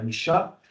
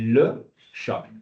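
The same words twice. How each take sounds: First: The vowel of 'le' is dropped before 'chat'. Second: The vowel of 'le' is pronounced, separate from 'chat'. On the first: "Ce n'est pas le chat" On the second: "le L se sépare du chat"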